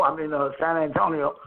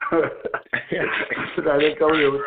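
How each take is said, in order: First: Said in the usual way. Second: "San Antonio" stretched very slowly, low, through a laugh; drawn-out San Antonio. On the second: Shown as a demonstration. Punchline of the Texas-or-Mexico joke, "San Antonio" drawn out very slowly.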